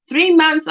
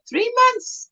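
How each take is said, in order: First: Said in the usual way. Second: High-pitched mock surprise; questioning reaction. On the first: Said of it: "if someone says". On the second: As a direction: echo it back high, in disbelief. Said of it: "I'm like".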